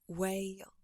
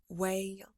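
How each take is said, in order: The two takes are said the same way.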